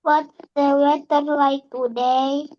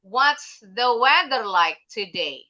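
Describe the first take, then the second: First: Tune rises at the end of "What's the weather like today?"; rising question tune. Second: Slow, "weather" stressed, tune falls at the end; falling question tune. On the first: Real, not acted. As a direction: let "today" climb up like a question. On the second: Shown as a demonstration. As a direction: bring the voice down on "today". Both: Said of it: "intonasinya kenapa jadi naik".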